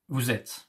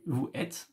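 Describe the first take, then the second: First: The s sound links vous to êtes. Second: Vous and êtes are said without a linking sound. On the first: It sounds native. The speaker calls it right. "If you want to sound like a French, you have to say" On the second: It sounds less native. The speaker calls it wrong. "Doesn't sound too French"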